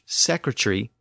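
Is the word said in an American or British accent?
British. It is said in a British accent. "British English"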